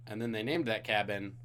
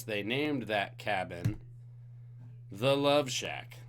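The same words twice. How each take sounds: First: Said in the usual way. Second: Slow dramatic reveal of the cabin's name; slow suspense build. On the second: Shown as a demonstration. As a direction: draw it out, slow and teasing.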